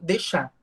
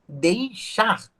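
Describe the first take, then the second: First: The ei becomes e and final r drops. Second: The diphthong ei and final r are pronounced. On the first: This is how people say it today. "hoje a gente já tem deixar" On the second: This is the older established form. "antes, se a gente tinha uma frase ali bem estabelecida, que era o deixar"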